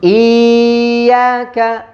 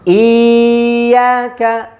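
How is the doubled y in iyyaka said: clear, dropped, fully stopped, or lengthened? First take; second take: lengthened; lengthened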